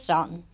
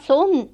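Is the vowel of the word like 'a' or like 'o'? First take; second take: a; o. First: The word has an a-like vowel. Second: The word has an o-like vowel. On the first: This is the usual form others use. "istället för sann" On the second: This is the old local dialect form. "De sa son"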